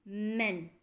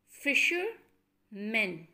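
First: Said in the usual way. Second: Fishermen stretched out slowly, syllable by syllable; slow syllable demo. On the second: Shown as a demonstration. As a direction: draw out each part of fishermen. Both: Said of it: "Number seven is".

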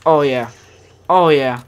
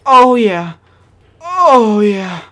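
First: Loud, satisfied oh yeah; real gamer pleasure, loud but in normal pitch; loud delight. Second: Much higher and very loud oh yeah; real gamer glee peaking high and loud; squealing delight. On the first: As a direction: relish it out loud. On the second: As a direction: let it burst out in a squeal. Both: Real, not acted. Savoring a gun while playing.

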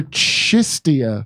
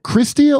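First: "Chistia" started with a CH sound, no R; pronunciation with CH. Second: "Christia" said with a hard K and R at the start; pronunciation with KR. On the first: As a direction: say "Chistia" without the K or R. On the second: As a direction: open "Christia" on a KR sound. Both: Shown as a demonstration. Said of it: "is it Christia or Chistia".

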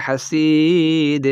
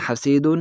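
First: হাসিদ with the ending dropped, slow and falling; pausal stop form. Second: Said in the usual way. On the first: Shown as a demonstration. Teacher showing the stop form of হাসিদ at a pause. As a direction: stop on হাসিদ, cutting off the final -un. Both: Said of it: "ওয়াকফ করলে".

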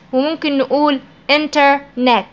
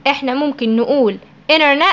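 First: إنترنت with every t pronounced; full t. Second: إنترنت said as "inernet" without the t after n; dropped t. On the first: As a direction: say each t in internet clearly. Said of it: "ممكن ننطقها". (إنترنت بالتاء كاملة) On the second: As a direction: skip the t after the n. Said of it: "ما بننطقهاش". (إنترنت بدون التاء بعد النون) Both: Shown as a demonstration.

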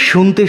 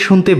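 Both takes have the same delivery.

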